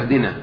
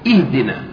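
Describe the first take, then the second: First: The first vowel is an 'a' sound. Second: The first vowel is an 'i' sound. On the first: The speaker calls it wrong. "لا يقول أهدنا" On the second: The speaker calls it right. "لابد بالكسر، يقول إهدنا"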